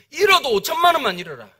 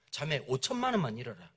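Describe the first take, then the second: First: 잃어도 hit harder, with firm insistence; emphatic counsel. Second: Low, soft pastoral appeal; retold gentle advice, kept low and soft; quiet counsel. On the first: Retold or imitated. Pastor urging a scammed church member, emphatic counsel. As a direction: press 잃어도 strongly, then let the line fall. Repeats the counsel more forcefully. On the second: Pastor counselling a scammed church member, quiet counsel.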